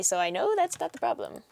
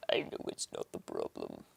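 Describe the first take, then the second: First: Said in the usual way. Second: Hushed, voiceless whisper. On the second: Real, not acted. Streamer troubleshooting audio software, whispered aside. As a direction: whisper it to yourself.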